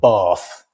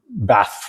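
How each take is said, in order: First: The vowel is a long, broad A. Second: The vowel is a short, flat A.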